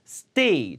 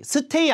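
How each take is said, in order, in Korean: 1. s 뒤의 t는 긴장음이고 무기음이에요. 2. s 뒤의 t는 유기음이에요.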